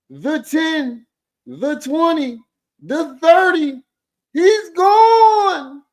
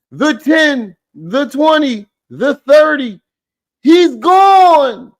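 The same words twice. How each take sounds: First: Much higher, slow, crying-out sportscaster shout; hammed-up play-by-play. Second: Higher, louder mock football call; mock play-by-play. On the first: Roasting the forehead with a frenzied touchdown call. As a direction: scream the touchdown like a frantic announcer. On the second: Mocking the forehead with a touchdown call, a sportscaster bit.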